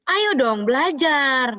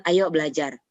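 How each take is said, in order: First: Raised, drawn-out parental urging; high intonation. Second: Low-key, even-paced urging; low intonation. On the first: Parent pushing a child to study, high intonation. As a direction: urge the child in a high, slow pitch. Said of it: "intonasi tuh tinggi". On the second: Parent asking a child to study, low intonation. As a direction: invite the child without raising the pitch. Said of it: "itu intonasinya tuh beda". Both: Shown as a demonstration.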